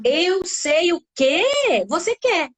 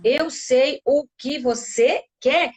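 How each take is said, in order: First: "Eu sei o que você quer" higher, slow, with "que" drawn out; expressive sentence tune. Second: "Eu sei o que você quer" slowly, a small break after each word; word-by-word count. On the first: Demonstrates a child's sentence. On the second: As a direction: separate all six words of "Eu sei o que você quer". Seis palavras numa frase. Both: Shown as a demonstration.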